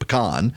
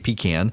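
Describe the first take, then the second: First: It is said the South Louisiana way. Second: It is said the South Georgia way.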